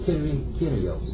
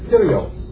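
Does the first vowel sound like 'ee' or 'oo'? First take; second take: ee; oo. First: The first vowel sounds like 'ee'. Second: The first vowel sounds like 'oo'. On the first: The speaker calls it right. "It's a Y sound" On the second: The speaker calls it wrong. "You have so many people saying this is Kyrios"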